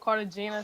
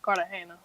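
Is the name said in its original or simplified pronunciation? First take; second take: simplified; original. First: The name is said in a simplified everyday pronunciation. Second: The name is said in its original family pronunciation. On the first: It is the easy version given to most people. "Most people I just tell them Cartagena, so it don't be like a hassle" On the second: It is how the name is really said. "it's really pronounced Cartagena"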